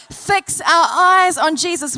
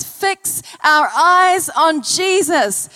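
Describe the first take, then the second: First: Said in the usual way. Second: Drawn-out, emphatic; slow scripture quote. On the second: Acted. Preacher to church, quoting the Bible slowly. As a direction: stretch it out as you quote scripture.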